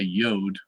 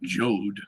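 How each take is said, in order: First: The word begins with a Y sound. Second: The word begins with a J sound. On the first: The speaker calls it right. "that begins with a Y" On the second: The speaker calls it wrong. "We don't say"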